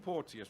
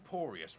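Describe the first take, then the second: First: The name sounds like the word portentous. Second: The name sounds like the word porous. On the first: The speaker calls it wrong. "I said Porteous like it was portentous" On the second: The speaker calls it right. "it's just Porous like porous"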